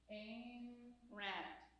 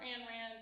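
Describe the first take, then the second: First: The name is said slowly and carefully. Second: The name is said quickly and casually. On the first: This is the careful pronunciation. The speaker calls it right. "I'm going to say it slowly" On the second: This is the speaker's easier pronunciation. The speaker calls it wrong. "because it's easier for me"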